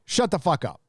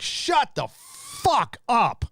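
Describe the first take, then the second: First: Said in the usual way. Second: Much higher and very slow, stretching each word; a long, high, fed-up shut the fuck up; drawn-out exasperation. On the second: Real, not acted. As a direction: drag it out in total disbelief. Exasperated retort to celebrities.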